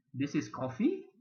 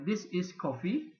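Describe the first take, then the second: First: "This is coffee" asked with the pitch rising on "coffee"; question tune. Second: "This is coffee" said as a flat statement, falling at the end; statement tune. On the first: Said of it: "itu soalan". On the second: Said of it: "itu statement". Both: Shown as a demonstration.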